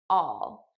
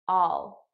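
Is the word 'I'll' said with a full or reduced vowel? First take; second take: Reduced; Reduced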